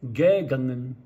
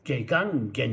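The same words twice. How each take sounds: First: ゲガンゲン with the first ゲ hit hard and the final ゲン nearly swallowed; German-style ゲガンゲン. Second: ゲガンゲン with every syllable equally weighted; Japanese-style ゲガンゲン. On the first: Teacher demonstrating how Germans read ゲガンゲン, louder. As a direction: punch the first ゲ of ゲガンゲン, let the ending fade out. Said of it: "最初のゲ…には強く置いて". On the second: Teacher showing how Japanese say ゲガンゲン, evenly. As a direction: give each mora of ゲガンゲン the same weight, Japanese style. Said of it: "日本人は、ギエンの過去はゲガンゲン". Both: Shown as a demonstration.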